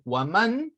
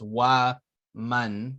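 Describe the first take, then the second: First: The two words are run together as one. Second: The two words are said with a break between. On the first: "when you're reading waman" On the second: "two separate um things"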